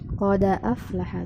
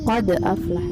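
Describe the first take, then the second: First: The d carries an a vowel, linking onward. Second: The d is closed, with no vowel after. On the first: "bukan qad lagi, qada aflaha, dalnya jadi fathah bukan sukun" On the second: "qad aflaha tetap qad aflaha"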